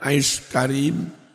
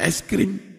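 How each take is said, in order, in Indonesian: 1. Kata kedua memiliki dua suku kata, ka-rim. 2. Kata kedua memiliki satu suku kata, krim. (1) "Itu bacanya ice karim, hidup mulia" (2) "Emang bacanya es krim"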